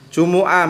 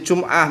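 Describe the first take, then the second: First: A short u vowel follows the m. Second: No vowel follows the m. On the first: This is the original Arabic form. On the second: This is the Indonesian form. "kalau bahasa Indonesia menjadi Jum'ah memnya di sukun"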